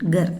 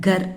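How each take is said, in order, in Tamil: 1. இது மூச்சுடன் கூடிய 'gh' ஒலியில் தொடங்குகிறது. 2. இது வெறும் மூச்சில்லாத 'k' ஒலியில் தொடங்குகிறது. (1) "ஜிஏ ப்ரொனவுன்சியேஷன்" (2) "கர் இல்லை"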